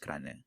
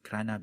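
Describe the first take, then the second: First: The final vowel is reduced to 'uh'. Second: The final vowel is a full 'ah' sound.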